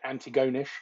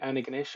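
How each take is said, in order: First: The name is said as a British newcomer guessed it. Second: The name is said the usual local way. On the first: The speaker calls it wrong. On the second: The speaker calls it right.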